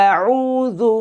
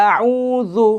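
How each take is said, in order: Both takes have the same delivery.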